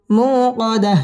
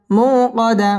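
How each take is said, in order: Both takes have the same delivery.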